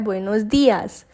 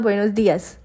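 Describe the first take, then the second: First: The accented syllable of días is pressed hard. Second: The syllables of días are said without extra pressure. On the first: "जहाँ पे ये लगता है वहाँ पे थोड़ा प्रेशराइज करके बोला जाता है" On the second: "नहीं तो बोला जाता"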